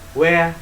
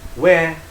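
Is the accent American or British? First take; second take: British; British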